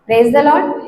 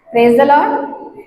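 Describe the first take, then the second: First: It is said in a tired, dejected tone. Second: It is said in a joyful, lively tone.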